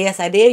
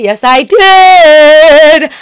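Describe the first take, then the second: First: Said in the usual way. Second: Much louder and slowly stretched, each word hit; loud slow proud yes. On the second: Real, not acted.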